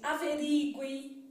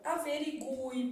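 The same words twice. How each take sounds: First: The stress falls on the I sound. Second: The stress falls on the U sound. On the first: This is how people usually say it now. "as pessoas gostam de pronunciar assim" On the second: This is the older form, once written with an accent. "A gente falava isso aqui"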